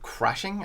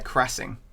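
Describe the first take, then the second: First: The middle consonant is a clear 'sh' sound. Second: The middle consonant is a plain 's' sound. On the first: The speaker calls it right. "you didn't say crashing" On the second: The speaker calls it wrong. "I think you said crassing"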